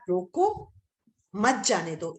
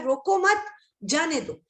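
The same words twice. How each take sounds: First: There is a pause right after रोको. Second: There is a pause right after मत.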